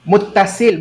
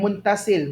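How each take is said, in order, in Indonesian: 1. Bagian tengahnya ada t yang dobel tanpa n. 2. Bagian tengahnya ada n sebelum t. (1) "muttasil bukan muntasil" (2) "bukan muntasil"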